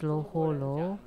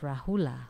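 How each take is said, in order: First: The name begins with an L sound. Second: The name begins with an R sound. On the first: This is the Chinese reading of the name. "In Chinese it's Loholo" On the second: This is the original form of the name. "but actually it's Rahula"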